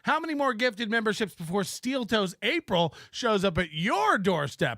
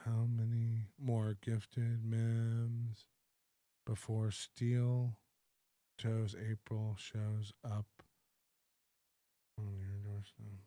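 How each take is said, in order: First: It is read at normal speed with energy. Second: It is read slowly with very low energy. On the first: The chat is woven smoothly into the show. The speaker calls it right. "so that's what I would do" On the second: The reader is lost in the chat, mumbling mopily. The speaker calls it wrong. "we'll bring the energy way down. It's much slower"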